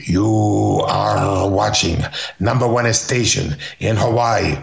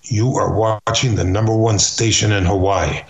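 First: Slow, lightly accented announcer voice, deliberately bad; mock the Argentine-Armenian wrestler's station ID; bad Firpo imitation. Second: Said in the usual way. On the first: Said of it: "that's a bad imitation". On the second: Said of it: "He says".

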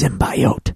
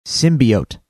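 First: "symbiote" said SIM-bye-oat; the mistaken sim-bye-oat for "symbiote"; wrong pronunciation. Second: "Symbiote" said SIM-bee-oat, lower; low, plain sim-bee-oat for "Symbiote"; correct pronunciation. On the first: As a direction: give "symbiote" a long I, as in bye. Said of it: "It's not pronounced symbiote". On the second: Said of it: "How's it pronounced". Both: Shown as a demonstration.

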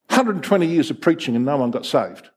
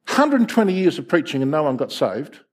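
No difference in how they are said.

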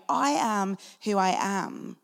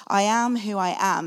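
First: Slow, weighty voice of God; solemn divine declaration. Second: Said in the usual way. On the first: Retold or imitated. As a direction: declare it slowly like God from the bush. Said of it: "the voice of Yahweh speaking through a burning bush to Moses, declaring".

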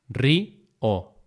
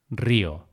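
First: "río" broken into rí, o; syllable by syllable. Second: Said in the usual way. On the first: Shown as a demonstration. Teacher repeating the split for learners, syllable by syllable. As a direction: say "río" as two separate beats. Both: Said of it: "esa separación de sílabas".

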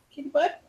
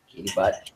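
First: "Kitty butt" squeaked very high and soft. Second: "Kitty butt" dropped low and soft; low silly voice. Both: Real, not acted. Cooing at the cat.

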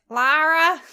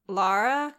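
First: Loud, higher American-accented LARA, imitating an actor; hammed-up American "Lara"; overdone American accent. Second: Said in the usual way. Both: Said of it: "'cause he says it like".

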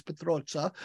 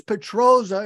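First: Petroza said the Italian way, with a ts sound for z; Italian pronunciation. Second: Petroza said the American way, with a plain z; American pronunciation. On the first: Host gives his name in Italian, Italian pronunciation. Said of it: "but Italian it's Petroza". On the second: Host introduces himself in American, American pronunciation. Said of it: "my name is Petroza in American". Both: Shown as a demonstration.

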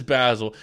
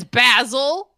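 First: "Basil" as "pæzəl", British short a; British pronunciation. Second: "Basil" said the British way, short a; British pronunciation. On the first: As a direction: echo "Basil" British style. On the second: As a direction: say "Basil" as a British guest would. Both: Retold or imitated. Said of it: "He says".

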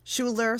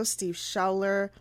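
First: Schuler said with an "oo" first vowel, SHOO-ler; corrected pronunciation. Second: Schuler said with an "ow" first vowel, like SHOW-ler rhyming with howler; mispronounced name. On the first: Host correcting herself on the professor's name, Schuler pronounced "SHOO-ler". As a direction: say Schuler as "SHOO-ler", a little higher and firmer. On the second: Host reading the co-founders' names, Schuler mispronounced as "SHAU-ler". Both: Real, not acted.

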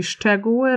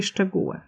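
First: Szczegóły as SZCZE-gó-ły; old stress on SZCZE. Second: Szczegóły as szcze-GÓ-ły; modern stress on GÓ. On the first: Lecturer showing what few still say, stressed on SZCZE. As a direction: hit the first syllable of szczegóły. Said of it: "mało kto mówi szczegóły". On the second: Lecturer showing the common form, stressed on GÓ. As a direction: put the beat on the middle syllable of szczegóły. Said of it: "raczej szczegóły". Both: Shown as a demonstration.

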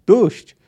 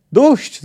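First: Loud, raised cry to stop; howled plea. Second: Much higher, loud yelp; echoed plea. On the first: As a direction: cry enough under the blows. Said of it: "zawył Wiedźmin". (głośny okrzyk poddania) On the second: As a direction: echo the cry at a high pitch. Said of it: "zawtórował zwinięty w kłębek Kahir". (wysoki, głośny okrzyk wtóru) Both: A narrator's reading.

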